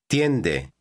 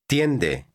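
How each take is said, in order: No difference in how they are said.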